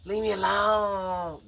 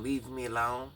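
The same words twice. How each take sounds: First: High, slow, strained yelled plea; imitating a scream. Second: Said in the usual way. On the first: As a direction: imitate a frantic boy yelling to be left alone. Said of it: "I heard Thomas screaming". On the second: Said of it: "When he was yelling".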